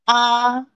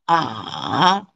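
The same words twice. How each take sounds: First: The syllable is said with the first tone. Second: The syllable is said with the third tone. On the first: "first tone" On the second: "third tone"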